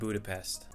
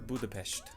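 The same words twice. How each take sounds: First: The name is said with an English pronunciation. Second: The name is said with the local Hungarian pronunciation.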